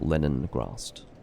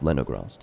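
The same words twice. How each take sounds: First: The name is said with an extra n sound. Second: The name is said without an extra n sound. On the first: The speaker calls it wrong. "not Leningrast. I inserted an N that didn't exist into that name" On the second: The speaker calls it right. "It's Leningrast"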